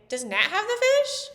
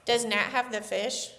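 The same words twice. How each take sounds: First: The voice rises at the end. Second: The voice stays flat at the end.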